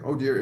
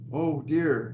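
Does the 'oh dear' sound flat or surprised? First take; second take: flat; surprised. First: It is said flatly, without surprise. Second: It is said with strong surprise. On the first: The speaker calls it wrong. "it's not like oh dear" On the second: The speaker calls it right. "it's like oh dear. It's like he's really communicating like the surprise"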